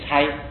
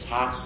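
First: The character is read with the vowel ai. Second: The character is read with the vowel a. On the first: The speaker calls it right. "在这个地方也要念猜" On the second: The speaker calls it wrong. "不能念差"

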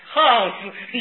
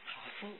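First: 好 is said with a falling tone. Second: 好 is said with a low dipping tone. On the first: The person is not necessarily of good character. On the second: Good deeds are being done.

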